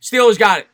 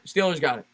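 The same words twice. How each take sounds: First: Louder, lifted Steelers got it; excited call. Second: Said in the usual way. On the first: Real, not acted. Play-by-play caller yells out the fumble recovery, excited.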